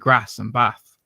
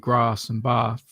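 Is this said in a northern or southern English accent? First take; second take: northern; southern. First: It is said in a northern English accent. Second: It is said in a southern English accent. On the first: "moved up to the north where they go they say" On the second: "I'm from the south, uh, so I say"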